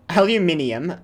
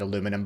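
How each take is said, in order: First: It is said with five syllables, with extra i. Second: It is said with four syllables, no extra i. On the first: The speaker calls it right. "I'm still pronouncing it correctly" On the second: The speaker calls it wrong. "I'm not pronouncing it aluminum"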